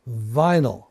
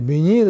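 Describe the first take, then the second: First: It is said with English pronunciation, vai-nul. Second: It is said with Japanese pronunciation, bi-nii-ru. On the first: "これを英語の発音にしますと" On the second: "ビニールっていうのが日本語の発音"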